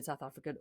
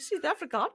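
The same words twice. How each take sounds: First: Said in the usual way. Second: Put-on South African, pitched higher; South African accent. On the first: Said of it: "I'm sorry to anyone who's". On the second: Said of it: "I've gone South African".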